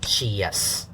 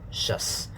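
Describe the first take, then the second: First: It is split into two beats, like she-yes. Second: It is one short beat with a weak vowel. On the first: The speaker calls it wrong. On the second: The speaker calls it right.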